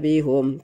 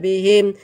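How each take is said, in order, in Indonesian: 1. Vokal setelah h adalah u. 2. Vokal setelah h adalah i. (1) "tidak dibaca bihum karena sebelumnya kasrah" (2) "bihim dibaca bihim"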